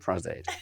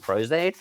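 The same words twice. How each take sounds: First: The word is said with a British accent. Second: The word is said with an American accent. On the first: The speaker calls it right. "No, I'm using Pros-Aide" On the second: The speaker calls it wrong. "Americans go"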